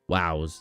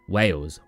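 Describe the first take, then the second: First: The word sounds like 'wows', with an ow vowel. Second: The word sounds like 'wails', with an ay vowel. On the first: This is how the parents say it. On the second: This is the usual pronunciation.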